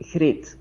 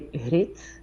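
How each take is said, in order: First: The first sound is said the general Flemish way. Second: The first sound is said the West Flemish way. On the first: This is how most people in Flanders say it. "in Flanders, people would say" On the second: This is how the speaker's own family says it. "my parents and I would say"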